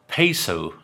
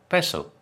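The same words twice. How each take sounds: First: It is pronounced with American-style vowels. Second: It is pronounced with Spanish-style vowels. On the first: The speaker calls it wrong. "why do they say peso" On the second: The speaker calls it right. "instead of peso"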